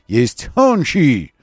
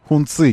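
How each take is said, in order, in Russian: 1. Второй слог начинается со звука 'ch'. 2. Второй слог начинается со звука 'ts'. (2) "нет никаких хунцов"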